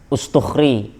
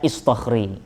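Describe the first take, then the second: First: The name begins with the vowel u. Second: The name begins with the vowel i. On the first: "namanya Ustukhri" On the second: "ada juga yang baca Istukhri"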